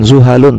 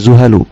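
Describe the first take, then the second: First: The word ends with an added n sound. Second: The word ends in a plain vowel. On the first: The speaker calls it wrong. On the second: The speaker calls it right.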